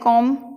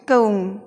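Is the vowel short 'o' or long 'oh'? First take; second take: short o; long oh. First: The vowel is a short open 'o'. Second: The vowel is a long gliding 'oh'.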